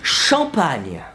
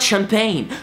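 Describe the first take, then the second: First: It is said with a French pronunciation. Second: It is said with an English pronunciation. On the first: The speaker calls it right. "I wanted to sound French" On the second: The speaker calls it wrong. "not champagne"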